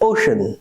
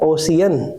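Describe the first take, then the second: First: The middle consonant is 'sh', in two syllables. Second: The middle consonant is 's', in three syllables. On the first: The speaker calls it right. "આનું પણ pronunciation is ઓશન" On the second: The speaker calls it wrong. "Not ઓસિયન"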